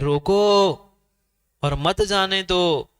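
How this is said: There is a pause after the first word.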